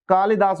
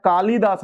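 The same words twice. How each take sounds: First: कालिदास with a short "li"; correct short i. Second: कालिदास with a long "lee"; wrong long i. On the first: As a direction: say कालिदास as "kaa-li-daas", brief i. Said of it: "छोटी ई की मात्रा लगेगी". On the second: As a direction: say कालिदास as "kaa-lee-daas", i held. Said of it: "कालिदास नहीं होता". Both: Shown as a demonstration.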